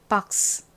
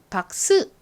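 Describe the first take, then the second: First: The final s is soft, like escaping air. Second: The final s is a strong, full syllable. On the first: The speaker calls it right. "바람 빠지듯이 스, 스 이렇게 발음이 납니다" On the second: The speaker calls it wrong. "박스 이렇게 스가 세게 발음되지 않고"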